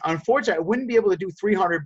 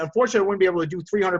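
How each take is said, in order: First: The tone sounds soft and sympathetic. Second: The tone sounds blunt and argumentative. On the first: The speaker understands the other person's feelings. The speaker calls it right. "letting them know that we're sympathetic to them" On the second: The speaker is still arguing and losing rapport. The speaker calls it wrong. "a bad response would be to say"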